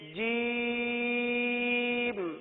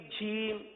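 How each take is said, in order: First: The word begins with a hard 'j' sound. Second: The word begins with a soft 'zh' sound. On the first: The speaker calls it right. "जीम निकलेगा" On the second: The speaker calls it wrong. "जीम के बजाय इसको झीम पढ़ते हैं"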